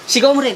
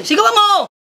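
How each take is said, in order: First: Said in the usual way. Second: Higher, insistent push; forceful urging. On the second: Acted. Friend urging husband to shout back, forceful urging. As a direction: egg him on with a raised voice.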